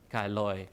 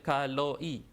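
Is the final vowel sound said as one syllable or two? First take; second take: one syllable; two syllables. First: The final diphthong is said as one syllable. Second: The final vowels are split into two syllables. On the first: The speaker calls it right. "Semua baca kaloi" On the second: The speaker calls it wrong. "Tak ada orang baca kaloi"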